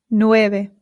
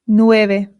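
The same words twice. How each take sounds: No difference in how they are said.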